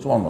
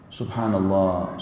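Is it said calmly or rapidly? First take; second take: rapidly; calmly. First: It is said rapidly, like mumbling. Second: It is said slowly and calmly.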